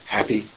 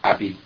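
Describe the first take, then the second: First: The word starts with a clear H sound. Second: The word starts without any H sound. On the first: "They have a hard time saying happy" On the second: "There's no H in French. They'll say happy"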